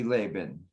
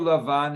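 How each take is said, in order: First: The name is said with an English pronunciation. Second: The name is said with a Hebrew pronunciation. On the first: "in English, it could be" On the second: "In Hebrew"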